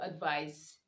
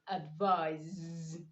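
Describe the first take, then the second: First: The word ends with an s sound. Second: The word ends with a z sound. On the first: The speaker calls it wrong. "you don't say advice" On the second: The speaker calls it right. "you say advise"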